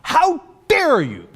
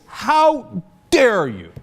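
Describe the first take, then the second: First: Much higher, hammed-up indignant squeal; mocking high-pitched how dare you; shrill mock outrage. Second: Slow, raised mock indignation; slow sarcastic how dare you; mock outrage. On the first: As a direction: squeal it back in exaggerated offence. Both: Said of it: "the Israelis and the U S says".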